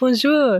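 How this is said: It is said with a put-on French accent. The listener understands it. The speaker calls it right. "You have to do an accent when you speak the tongue"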